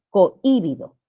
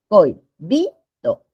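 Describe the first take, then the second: First: "cohibido" as co-Í-bido, stress on the first I; mispronunciation demo. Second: Slow "Cohibido" as coi, BI, do; "Cohibido" in three beats, oi joined, stress on bi; syllable by syllable. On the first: Teacher shows a word that does not exist, misstressed. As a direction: split "cohibido" after co and stress the following I. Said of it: "pronunciar cohibido". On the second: Teacher shows where the tonic syllable is, syllabified. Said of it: "La sílaba tónica está por acá". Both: Shown as a demonstration.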